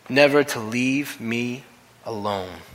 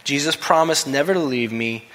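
First: Slowly, weighing "never"; slow emphatic repeat. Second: Said in the usual way. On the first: Shown as a demonstration. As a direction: stretch "never to leave me" out slowly.

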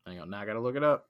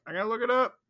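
First: Said in the usual way. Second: High, playful sing-song; a higher mock repeat. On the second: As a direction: toss it off up high, teasing.

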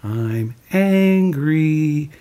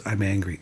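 First: Very slow, drawn-out higher modelling; slow, raised-pitch teaching example; Mister Rogers. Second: Soft, quick reluctant echo; imitating a subdued, hesitant repeat; Lloyd. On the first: Retold or imitated. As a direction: stretch each word for someone to copy. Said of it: "He goes". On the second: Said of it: "And Lloyd goes".

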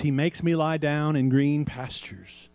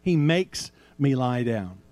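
First: "He makes ME lie down" slow, ME stressed; slow reading, weight on ME. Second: "HE makes me lie down" slow and lower, HE stressed; slow, low, lean on HE. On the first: Preacher reading verse two to the congregation, ME stressed. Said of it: "it says". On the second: Preacher pointing the congregation to who acts, HE stressed slowly. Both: Shown as a demonstration.

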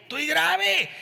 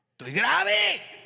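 First: "grave" high and falling; high whiny repeat. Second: "grave" dragged out high and slow; high drawn-out complaint. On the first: Same high whine said again. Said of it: "repeated take". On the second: Preacher showing a whiny high moan. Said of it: "demo take". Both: Shown as a demonstration.

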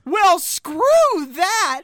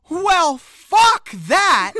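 First: Slow, loud "Well, screw that", a bit higher; dubbed version. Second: Loud, drawn-out "Well, fuck that"; shouted line. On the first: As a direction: stretch out "screw" like a dubbed line. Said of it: "to make it sound like she says". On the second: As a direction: belt "fuck" out slowly and loud. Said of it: "actually says". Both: Retold or imitated.

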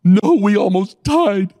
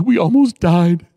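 First: Retold repeat of the line. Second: Retold scared passenger. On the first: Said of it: "I said". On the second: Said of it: "he goes".

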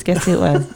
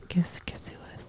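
First: Said in the usual way. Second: Teasing stage whisper. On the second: Pretend. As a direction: whisper it like a secret. Teasing whispered guessing game.

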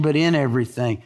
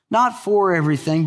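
First: "in" stressed and lower, the corrected word. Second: "for" said as the rejected word, set against "in"; stress on FOR. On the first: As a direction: land firmly on "in" to correct the wrong reading. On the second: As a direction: lean on "for" to mark it as not what he means. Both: Shown as a demonstration.

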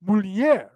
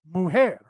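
First: "Mulher" as mool-YEH, lh gliding into y; Portuguese mulher. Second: "mujer" as moo-HEH with a throaty h; Spanish mujer. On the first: Contrasting Portuguese with Spanish for viewers, Portuguese pronunciation. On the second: Contrasting Spanish with Portuguese for viewers, Spanish pronunciation. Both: Shown as a demonstration. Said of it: "there's a subtle difference".

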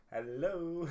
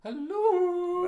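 First: Higher-pitched mimicked hello; mock a friend's podcast greeting; imitating co-host. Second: Very high, loud cooed hello; hammed-up mimicry of a greeting; exaggerated impression. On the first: Co-host mimics the host's hello, imitating. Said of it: "my best impression of you going". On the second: Co-host tops the other's impression of host, exaggerated mimicry. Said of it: "It's more like".

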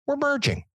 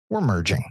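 First: High, mock sing-song announcement; mocking quote. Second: Said in the usual way. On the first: Ranting fan mimics commissioner announcing the merger, high mocking voice. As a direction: toss it off sky-high, sneering at the boss. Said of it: "this motherfucker comes back ... and says". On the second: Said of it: "and says".

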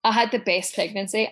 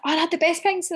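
First: Said in the usual way. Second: High, gushing recollection to a friend; high-pitched gush to a pregnant friend; gushing quote. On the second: Retold or imitated. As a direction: gush it up high like it was all bliss. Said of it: "and then I was like".

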